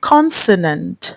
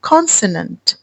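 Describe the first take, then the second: Both takes have the same delivery.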